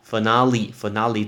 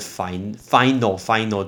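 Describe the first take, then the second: First: The word is said with three syllables. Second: The word is said with two syllables. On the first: The speaker calls it right. "它是3 个音节叫finale" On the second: The speaker calls it wrong. "你会觉得念成final 最后，不对"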